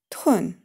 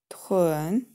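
First: The pitch falls sharply from high. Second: The pitch dips low, then rises. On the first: "четвертый тон" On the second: "третий тон"

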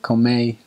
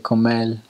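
First: The final r is changed, northern countryside style. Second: The final r is changed, capital city style. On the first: "they call that the countryside... they say" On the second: "Or in the capital, they say"

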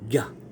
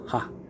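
First: The syllable starts with a 'gy' sound. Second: The syllable starts with an 'h' sound. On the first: The syllable stands first in the formula. "kung nasa unahan po, ang banggit po ay yung normal po" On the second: The syllable stands second in the formula. "Pag nasa pangalawa po"

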